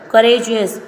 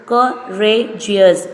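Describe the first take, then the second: First: Said in the usual way. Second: "courageous" drawn out beat by beat; slow syllable by syllable. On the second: Shown as a demonstration. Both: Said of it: "three syllable".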